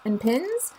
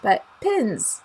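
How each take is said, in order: First: "pins" said like "pens", rising; "pins" with the vowel of "pens"; Chicago pen-pin merger. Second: "pins" with a clear short i, falling; "pins" stressed, clearly not "pens"; careful pins. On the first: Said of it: "my Chicagoan accent can't tell the difference between pins and pins". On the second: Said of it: "can't tell the difference between pins and pins". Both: Shown as a demonstration.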